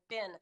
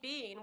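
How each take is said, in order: First: The vowel is short, like in 'bin'. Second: The vowel is long, like in 'bean'. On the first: The speaker calls it right. "we're going to pronounce it B I N" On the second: The speaker calls it wrong. "you say bean"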